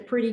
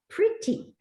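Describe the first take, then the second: First: The word is said loosely, without careful enunciation. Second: The word is said with careful, precise enunciation. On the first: The speaker calls it wrong. "that was bad news" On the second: The speaker calls it right. "You had to say pretty"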